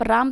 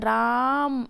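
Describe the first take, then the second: First: The word is said short and quick. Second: The vowel is stretched out long, like calling.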